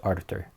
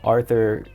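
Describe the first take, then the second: First: The name is said with a plain 't' sound. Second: The name is said with a 'th' sound. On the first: The speaker calls it right. "Yep, I pronounced it wrong. My apologies. It's Arthur" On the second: The speaker calls it wrong. "I'm sorry I threw an H in your name"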